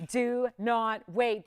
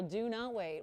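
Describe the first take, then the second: First: "do not wait" very slow and loud, each word separate; emphatic warning. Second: Said in the usual way. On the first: Real, not acted. Host urges last callers, stressing every word of "do not wait". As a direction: punch out "do", "not", "wait" one by one.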